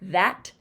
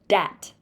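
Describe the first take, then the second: First: The word begins with a th sound. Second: The word begins with a d sound.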